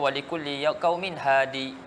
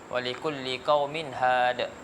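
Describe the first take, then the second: First: The last word ends in a vowel i. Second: The last word ends in a bare consonant. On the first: The final ya is kept in the pause. "Ibnu Katsir dia baca dengan lurah satu lagi... dengan isbatkan ya" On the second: The final ya is dropped in the pause. "riwayat yang kita baca had"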